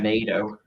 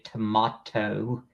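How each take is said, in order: First: It is said with an American pronunciation. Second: It is said with a British pronunciation.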